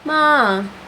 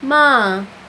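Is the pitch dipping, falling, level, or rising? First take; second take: falling; falling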